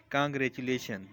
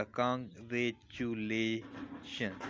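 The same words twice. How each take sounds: First: Said in the usual way. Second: congratulation very slow and soft, a pause after each syllable; teacher spacing out every syllable of congratulation, slowly. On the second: Shown as a demonstration. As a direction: break congratulation into Kong, रे, चु, ले, शन. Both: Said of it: "word को तोड़ के देखते हैं".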